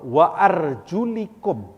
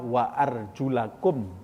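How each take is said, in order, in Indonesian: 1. Vokal sebelum -kum adalah bunyi 'i'. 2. Vokal sebelum -kum adalah bunyi 'a'. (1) "sebagian ada yang membacanya uh, wa arjulikum" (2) "Bacaan yang benar adalah wa arjulakum"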